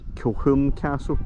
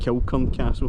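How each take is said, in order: First: The middle consonant is a soft H sound. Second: The middle consonant is a hard K sound. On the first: It is the name's actual local pronunciation. The speaker calls it right. "I believe the actual pronunciation is Kilhurn Castle" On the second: It follows how the name looks written. The speaker calls it wrong. "I've always called it Kilcurn Castle, which is kind of how it looks like it's pronounced"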